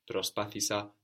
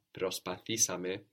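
First: Προσπάθησα with the accent on πά; stress before the shift. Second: Προσπαθήσαμε with the accent on θή; accent moved forward one. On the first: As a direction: stress the second syllable of προσπάθησα. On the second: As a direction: stress the third syllable of προσπαθήσαμε. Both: Shown as a demonstration. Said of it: "the accent also moves forward one".

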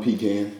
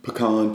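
First: "pecan" as PEE-can; PEE-can pronunciation. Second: "pecan" as puh-KAHN; puh-KAHN pronunciation. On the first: Listing regional variants, "pecan" as PEE-can. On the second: Listing regional variants, "pecan" as puh-KAHN. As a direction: stress the second syllable of "pecan", with AH. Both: Shown as a demonstration. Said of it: "People say".

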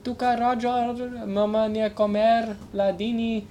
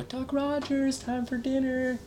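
First: High mom voice in mock foreign language; mom impression. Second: High, slow mom voice calling out; mom calling for dinner. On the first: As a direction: call him to dinner like his mother, with accent. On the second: Retold or imitated. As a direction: call him in from the window like a mother. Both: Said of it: "That was my mom impression".

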